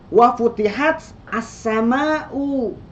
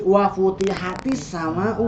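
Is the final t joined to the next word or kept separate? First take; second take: separate; joined. First: The t stops before a separate as. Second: The t links to the next word with i. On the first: The speaker calls it wrong. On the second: The speaker calls it right.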